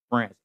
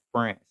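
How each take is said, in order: Both takes have the same delivery.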